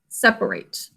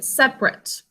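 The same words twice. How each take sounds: First: The last syllable sounds like 'ate'. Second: The last syllable sounds like 'it'. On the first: It is a verb meaning to split up. "That basically means to split up" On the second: It is an adjective meaning apart. "if you use it as an adjective, though, you pronounce it separate"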